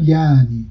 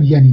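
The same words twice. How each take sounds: First: یعنی drawn out as yaani; lengthened vowel. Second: یعنی with the glottal stop, ya'-ni; pronounced ain. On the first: Linguist showing the form people use, lengthened vowel. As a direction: glide through یعنی with a long a, no stop. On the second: Linguist contrasting the form people don't use, pronounced ain. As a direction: cut the first vowel of یعنی short with a catch. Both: Shown as a demonstration.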